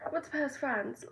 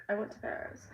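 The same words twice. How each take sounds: First: Put-on a playful British accent, pitched higher; light mock British accent. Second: Said in the usual way. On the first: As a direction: say it like a posh Brit announcing Paris, France. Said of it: "I'm speaking in a British accent". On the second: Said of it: "speaking in a British accent".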